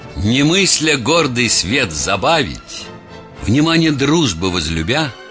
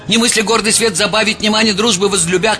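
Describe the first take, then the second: First: It is read expressively, with lively feeling. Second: It is read in a flat, mumbling monotone. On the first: The speaker calls it right. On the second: The speaker calls it wrong.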